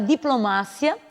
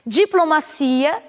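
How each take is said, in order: First: The stress falls where Spanish places it. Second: The stress falls where Portuguese places it.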